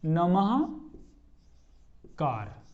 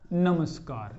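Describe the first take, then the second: First: A breathy h sound comes before kar. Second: A clear s sound comes before kar. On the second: "ये स बनता है, दंत्य स"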